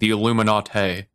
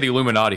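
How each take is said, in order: First: It is said in an affected, pretentious way. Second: It is said in a plain, ordinary way.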